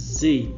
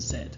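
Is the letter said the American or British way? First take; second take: American; British. First: The letter is said the American way. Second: The letter is said the British way. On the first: "You may hear that letter pronounced as a Z, particularly uh, in America" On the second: "I'm going to teach you the British pronunciations"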